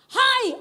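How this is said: The greeting is said in a firm, forceful manner. The writer is speaking with resolve and authority. The speaker calls it right. "dia sedang berbicara dalam satu ketegasan"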